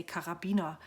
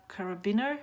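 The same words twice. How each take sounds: First: "Karabiner" said the German way; German pronunciation. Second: "carabiner" said the English way, questioning; unsure English pronunciation. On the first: German speaker shows how Germans say "Karabiner", in German pronunciation. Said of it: "In German, we would say". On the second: German speaker guesses at English "carabiner", unsure. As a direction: try "carabiner" in English, unsure, rising at the end. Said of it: "I don't know how to pronounce it in English". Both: Shown as a demonstration.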